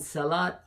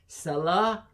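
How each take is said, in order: First: The word ends with a T sound. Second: The word ends without a T sound. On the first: The speech continues after the word. "you pronounce the T, the sound of T, if you're continuing" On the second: The word stands at a stop. "if you say Salah, ... a stop without a, the T"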